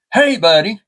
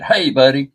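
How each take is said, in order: First: High-pitched mimicking crow voice; talking crow. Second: Said in the usual way. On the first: Pet crow echoing its owner, high mimicking voice. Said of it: "Then she said". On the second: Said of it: "And I said".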